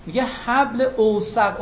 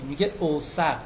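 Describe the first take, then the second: First: «اوثق» drawn out slowly and lifted high; stress on اوثق. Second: Said in the usual way. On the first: Shown as a demonstration. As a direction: lean slowly on «حبل اوثق». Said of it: "اوثق افعل تفصیله". (تأکید کشیده و آهسته روی «اوثق») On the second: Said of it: "وثیق نمیگه وثیق".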